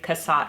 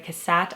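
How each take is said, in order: First: The last syllable does not rhyme with 'hat'. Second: The last syllable rhymes with 'hat'. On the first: The speaker calls it right. "her name is actually pronounced Mary Cassatt" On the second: The speaker calls it wrong. "I pronounced her name as Mary Cassatt"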